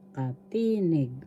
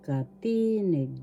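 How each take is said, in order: Both takes have the same delivery.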